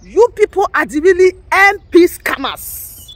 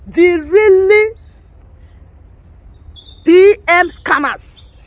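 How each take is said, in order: First: Slower, louder accusation; accusing repeat. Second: Really and P M scammers dragged out slowly and loudly; stressed repeat. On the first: Repeating the accusation to agitators, louder. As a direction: throw the charge back at them. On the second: Repeating the accusation to agitators, slow and emphatic. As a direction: hammer the words really and P M scammers, one at a time. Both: Real, not acted. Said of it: "repeats phrase for emphasis".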